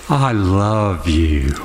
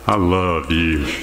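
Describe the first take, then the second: First: It is said in a warm, open, positive tone. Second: It is said in a cold, unconvincing tone. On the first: The love is sincere. "Pretty open, positive" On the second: The love is not really meant. "But do you think I love you from the second one?"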